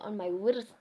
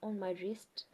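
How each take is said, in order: First: The w sound at the start is pronounced. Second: The w sound at the start is silent. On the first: The speaker calls it wrong. "Don't say on my wrist" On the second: The speaker calls it right. "It's on my wrist"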